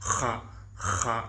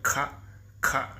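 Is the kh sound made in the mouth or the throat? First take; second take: throat; mouth. First: A rough, guttural sound comes from the throat. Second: A light sound comes from mid-mouth, not throat. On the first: "அரபிக்கில் ... யூனிக்காக டிஃப்ரென்ஸாக இருக்கும்" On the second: "காரல் சவுண்டு தொண்டையிலேருந்து வராது, ... வாயோடைய நடு மத்தியத்திலிருந்து லைட்டான ஒரு க் க்"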